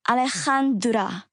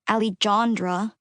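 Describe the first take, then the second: First: The middle consonant is a strong throaty H. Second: The middle consonant is a hard English J. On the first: "The third syllable is pronounced like the Chan in Hanukkah" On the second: "the J is pronounced like an H"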